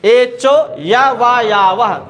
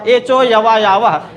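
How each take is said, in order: First: There is a pause after the first word. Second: The words run together without a pause. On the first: "एचो यहीं रुक जाना" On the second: "जब बनने लगे तो फिर कहिए"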